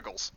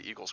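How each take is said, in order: First: It is said in a Philadelphia accent. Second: It is said in a plain, general accent. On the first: The speaker calls it right. "You're supposed to say Eagles" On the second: The speaker calls it wrong. "I don't even say Eagles correctly"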